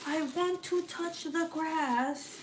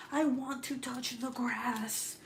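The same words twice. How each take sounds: First: Put-on much higher, slow pleading kid voice; mock whiny child; imitating whiny son. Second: Put-on higher, slow pleading kid voice; mock whiny child; imitating whiny son. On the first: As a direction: whine it like a bored kid stuck inside. Mimicking her grounded son again. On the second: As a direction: whine it like a bored kid. Mimicking her grounded son.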